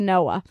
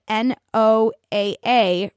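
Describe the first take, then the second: First: It is said as one word, like Noah. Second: It is spelled out as separate letters. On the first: The speaker calls it right. "you pronounce it like the name Noah" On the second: The speaker calls it wrong. "so I even just did it wrong"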